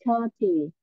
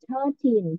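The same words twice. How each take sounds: First: "thirty" with the stress on thir-; stress on the first syllable. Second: Put-on "thirteen" with the stress on -teen; stress on the second syllable. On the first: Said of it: "thirty nó nhận vào âm một". (nhấn trọng âm vào âm thứ nhất của "thirty") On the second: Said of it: "thirteen thì nó nhận vào âm hai". (nhấn trọng âm vào âm thứ hai của "thirteen") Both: Shown as a demonstration.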